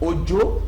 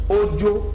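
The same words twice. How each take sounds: First: The first syllable is low, the second high. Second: Both syllables are on a level mid tone. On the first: It is a person's name. "the name of a person. Domi" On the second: It means a coward. "a coward. Rere. It has no tone"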